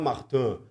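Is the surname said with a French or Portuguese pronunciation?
French. The surname is said with a French pronunciation. It would sound arrogant on a Brazilian broadcast. The speaker calls it wrong. "O francês fala Martin"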